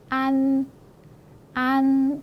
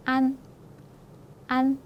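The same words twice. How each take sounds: First: "안" drawn out, high and level; long A. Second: "안" brief, high and level; short A. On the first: Teacher reads word without breve, "안" held long. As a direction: hold the vowel of "안" long and high. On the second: Teacher reads the second word, "안" kept short. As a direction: cut "안" short on a high pitch. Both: Shown as a demonstration. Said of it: "길이의 차이가 있죠".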